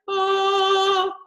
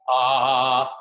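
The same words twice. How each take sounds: First: It is high and light in head voice. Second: It is low, thick and strong in chest voice. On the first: "Head voice, way up here" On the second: "Chest, ... down here where I speak"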